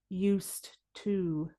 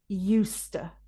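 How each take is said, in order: First: The two words are said fully and separately. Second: The words are run together, stressing 'use'. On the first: The speaker calls it wrong. "English speakers don't usually say used to" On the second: The speaker calls it right. "It's easier and sounds more natural to say used to. Put the stress on the use"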